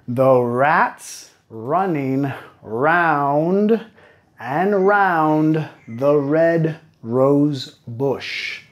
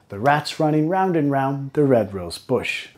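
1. La frase se dice a un ritmo más lento. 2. La frase se dice a un ritmo más rápido. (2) "y después un poco más rápido"

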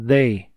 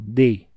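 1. Começa com um som de th suave. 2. Começa com um som de d simples. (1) "Esse T H aqui é uma coisinha chata de pronunciar" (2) "Vocês usem o D mesmo"

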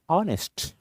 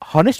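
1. हा शब्द स्वराच्या आवाजाने सुरू होतो. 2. हा शब्द h आवाजाने सुरू होतो. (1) "हे सायलेंट आहे, ऑनेस्ट अ आवाज येतो" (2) "तसं हॉनेस्ट म्हणतो का? नाही"

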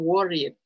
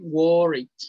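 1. La terminación se pronuncia como una sílaba extra. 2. La terminación es solo un sonido consonántico final. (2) "La E no suena"

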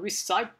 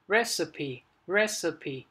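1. Từ này chỉ có hai âm tiết. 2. Từ này có ba âm tiết. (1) "thường có thể các bạn sẽ là recipe, cái gì đấy, nhưng mà không phải" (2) "Cái này nó sẽ có 3 âm tiết ... trọng âm sẽ dự âm đầu tiên"

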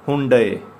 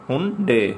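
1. शब्द 'ay' ध्वनि से खत्म होता है। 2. शब्द 'ay' ध्वनि से खत्म होता है।

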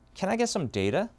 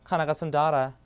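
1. 미국 억양으로 말한 거예요. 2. 호주 억양으로 말한 거예요.

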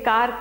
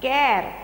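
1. स्वर लंबे 'ah' जैसा सुनाई देता है। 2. स्वर 'air' जैसा सुनाई देता है। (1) "कार कहेंगे" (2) "तो बच्चा कैर पढ़ेगा"

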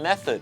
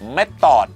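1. พยางค์ที่สองมีสระลดรูป และมีเสียง th 2. พยางค์ที่สองมีสระ 'aw' เต็มเสียง และมีเสียง t (1) "ก็ออกเสียงว่า" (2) "ชาวไทยหลายคนครับออกเสียงคำนี้นะฮะเม็ดตอดโอ้โหฟังแล้วเหมือนปลาดูดกระจก"

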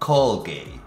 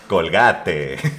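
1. Se dice con acento del inglés estadounidense. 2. Se dice con acento del español mexicano.

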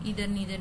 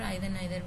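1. ये शब्द 'ee' स्वर के साथ बोले जाते हैं। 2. ये शब्द 'eye' स्वर के साथ बोले जाते हैं। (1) "इधर नीदर भी बोल सकते हैं" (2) "आइदर नाइदर भी हमने सुना है लोग ऐसा इसका प्रोनाउंसिएशन करते हुए"

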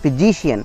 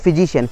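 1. बलाघात -cian से पहले वाले अक्षर पर पड़ता है। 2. बलाघात किसी दूसरे अक्षर पर पड़ता है।

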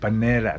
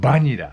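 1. 英語の母音とアクセントで言います。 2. 平らなカタカナの音で言います。

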